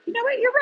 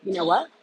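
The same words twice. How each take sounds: First: "You know what?" jumps to a squeaky high pitch with a rising end. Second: Said in the usual way. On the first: Shown as a demonstration.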